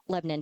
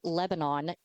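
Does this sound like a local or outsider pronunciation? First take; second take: local; outsider. First: It is pronounced the local Tennessee way. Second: It is pronounced the way outsiders say it. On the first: The speaker is from the area. The speaker calls it right. "it is called Lebanon, Tennessee" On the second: The speaker is not from the area. The speaker calls it wrong. "If you call it Lebanon, you're wrong"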